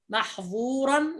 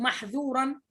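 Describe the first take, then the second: First: The middle consonant is heavy, with the tongue raised. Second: The middle consonant is light, with the tongue lowered. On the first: The word's meaning changes. The speaker calls it wrong. "لم تحرص على انفتاح الذال انقلبت ضاء فتقول محظورا" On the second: The intended meaning is kept. The speaker calls it right. "وأنت تريد محذورا"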